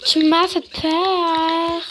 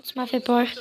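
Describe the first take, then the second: First: Mock-dramatic, lingering vowels; slow drawn-out delivery. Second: Said in the usual way. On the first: Player redoes a game line about a fright, slow and drawn-out. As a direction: stretch it out slowly, especially the last word.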